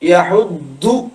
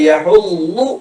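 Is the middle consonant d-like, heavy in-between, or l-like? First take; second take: d-like; l-like. First: The middle consonant sounds like a plain 'd'. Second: The middle consonant sounds like an 'l'. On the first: "ദാലിലേക്ക് അധികം പോവരുത്" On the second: "ള എന്നും അല്ല"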